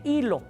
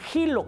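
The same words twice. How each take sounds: First: The first sound is silent, with no consonant. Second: The first sound is a harsh j sound.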